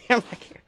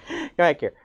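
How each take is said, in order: First: Whispered through laughter; laughing whisper. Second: Said in the usual way. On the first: Real, not acted. Teacher whispering through laughs as the cat escapes. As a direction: laugh it out under your breath. Cat runs off mid-lesson.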